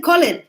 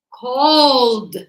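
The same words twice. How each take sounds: First: "called" as "coll-ed", two syllables, loud; wrong pronunciation. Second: "called" as one long syllable ending in D; correct pronunciation. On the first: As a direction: show the mistake "called" with the -ed sounded. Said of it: "It isn't called". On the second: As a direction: model "called" loudly, stretched, with no vowel before the D. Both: Shown as a demonstration.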